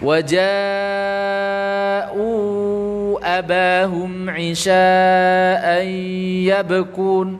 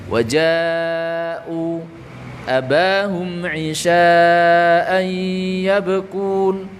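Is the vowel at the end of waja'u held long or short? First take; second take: long; short. First: Waja'u runs into abahum with a long vowel. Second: Waja'u stops with a short two-count vowel. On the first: "Ketika wasol dibaca waja'u abahum" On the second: "ketika wakof dibaca berapa? Dua"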